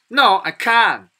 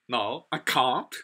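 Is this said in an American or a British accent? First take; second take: American; British. First: It is said in an American accent. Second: It is said in a British accent. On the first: "You know that in American people, usually they say" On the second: "How about British? They say"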